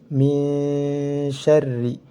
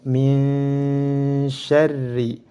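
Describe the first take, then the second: No difference in how they are said.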